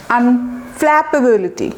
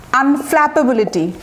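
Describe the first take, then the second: First: আনফ্ল্যাপেবিলিটি said slowly, with a break after the first syllable আন; slow teaching demo of আনফ্ল্যাপেবিলিটি, piece by piece; broken into parts. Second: Said in the usual way. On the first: Shown as a demonstration. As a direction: split আনফ্ল্যাপেবিলিটি into slow, separate parts for learners. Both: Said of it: "ভেঙে ভেঙে উচ্চারণ করবেন".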